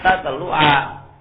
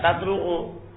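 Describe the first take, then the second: First: The word ends with an 'a' vowel. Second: The word ends with a 'u' vowel. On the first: The speaker calls it right. "Jadi sirtu hatta tatlu'a" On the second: The speaker calls it wrong. "tidak boleh dibaca tatlu'u"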